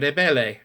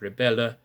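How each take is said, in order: First: The word ends in an open E sound. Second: The word ends in a rounded Ö sound. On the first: The speaker calls it wrong. "you might want to say rebelle" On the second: The speaker calls it right. "these endings must be an Ö sound"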